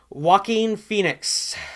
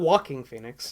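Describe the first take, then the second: First: The first name sounds like 'wah-keen'. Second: The first name sounds like the word 'walking'. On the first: The speaker calls it right. "not Walking Phoenix" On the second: The speaker calls it wrong. "I always get his name wrong"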